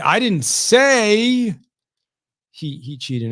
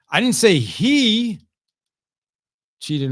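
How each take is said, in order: First: The word "say" carries the main stress. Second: The word "he" carries the main stress. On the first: It was implied, not said. "I might have implied it, but I didn't say it" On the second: A different person cheated. "That was someone else that cheated in golf"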